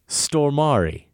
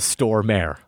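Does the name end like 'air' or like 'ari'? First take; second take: ari; air. First: The name ends with a sound like 'ari'. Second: The name ends with a sound like 'air'. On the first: The speaker calls it right. "It's Stormari. Think first storm, then add Ari" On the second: The speaker calls it wrong. "Peter Stormare is not a Stormare"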